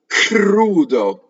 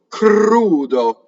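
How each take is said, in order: First: The opening K is explosive with a puff of air. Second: The opening K is soft, close to a G. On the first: The speaker calls it wrong. "it's not k, crudo. You don't want that one" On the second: The speaker calls it right. "the K for singing has to be put more towards voiced"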